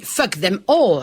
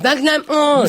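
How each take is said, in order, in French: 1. Les mots sont prononcés clairement et distinctement. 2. Les mots sont marmonnés et difficiles à comprendre. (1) "normalement on dit fuck them all hein, pour entendre" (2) "Mais là c'est fuck them all"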